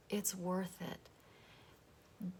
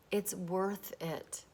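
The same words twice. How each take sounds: First: Said very slowly and much softer; soft, slow repeat. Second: Said in the usual way. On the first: Shown as a demonstration. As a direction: let it sink in, almost under the breath. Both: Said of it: "repeated for effect".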